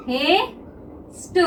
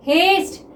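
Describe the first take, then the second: First: haste stretched very slowly and softly while drawing it; slow drawn-out word. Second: Said in the usual way. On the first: Shown as a demonstration. Teacher to students, stretching haste slowly and softly as she draws it. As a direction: draw out haste slowly and quietly, syllable by syllable. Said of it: "तो देखिए हम haste को किस तरह से बनाते हैं". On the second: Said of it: "क्या हो गया स्टूडेंट?".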